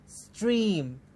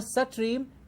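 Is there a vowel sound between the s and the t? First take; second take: no; yes. First: A short s runs straight into the t. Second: An extra vowel is inserted after the s. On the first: The speaker calls it right. "with a very, very short s in the beginning" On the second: The speaker calls it wrong. "There is no satreem"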